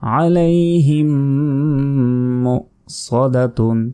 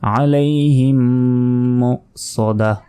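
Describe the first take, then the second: First: The last word ends with the syllable 'tun'. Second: The last word ends in a soft 'h' sound. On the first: The reader continues without stopping. "আর যদি না থামি তাহলে" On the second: The reader stops at this word. "যদি থামি সেক্ষেত্রে"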